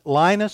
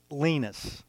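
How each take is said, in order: First: "Linus" said as LYE-nus; long-i pronunciation. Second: "Linus" said as LEE-nus; long-ee pronunciation. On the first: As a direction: say "Linus" with a first syllable like "line". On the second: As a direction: say "Linus" with a first syllable like "lean". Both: Shown as a demonstration. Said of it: "some people pronounce it Linus".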